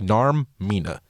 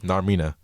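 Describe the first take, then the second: First: The name is split into two separate parts. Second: The name is said quickly in one run. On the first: "that was a little too much because you broke it up in two" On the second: "I think you were saying it too fast"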